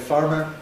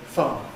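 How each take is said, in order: First: Both r sounds are pronounced clearly. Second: Both r sounds are left silent. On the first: "we don't say farmer" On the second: "we say farmer"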